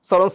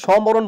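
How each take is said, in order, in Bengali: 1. এটি কোনো 'm' ধ্বনি ছাড়াই বলা হয়। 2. এটি ভেতরে একটি 'm' ধ্বনি নিয়ে বলা হয়। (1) "সরণ সভা বলি" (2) "সমরণ বলি না"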